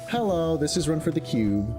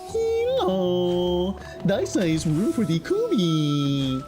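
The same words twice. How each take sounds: First: It is said in an ordinary speaking voice. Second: It is said in a strange put-on voice. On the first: "instead of saying it like that" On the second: "in like this really bizarre voice"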